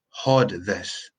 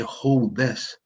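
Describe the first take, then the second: First: It is said in a local dialect pronunciation. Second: It is said in standard English pronunciation. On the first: The speaker calls it wrong. "I said, hold this" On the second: The speaker calls it right. "didn't say hold this"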